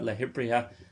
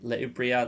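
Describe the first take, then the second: First: The second word starts with an H sound. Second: The second word starts directly with a vowel. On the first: "not much of a difference" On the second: "if you forgot one like that, if you said le ibriha"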